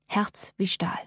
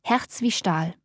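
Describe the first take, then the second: First: "Herz wie Stahl" whispered, soft and unvoiced; whispered echo. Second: Said in the usual way. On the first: A narrator's reading. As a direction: breathe "Herz wie Stahl" as a hushed aside. Repeated phrase as an echo.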